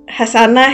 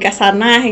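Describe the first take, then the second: First: The name begins with a soft h sound. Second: The name begins with a hard k sound. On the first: This is the standard form of the name. "Hasanah gitu kan" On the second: This is how village people say the name. "jadi Kasanah gitu lah"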